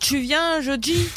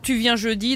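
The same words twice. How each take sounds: First: The t and d sound like ch and j. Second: The t and d are plain, without friction.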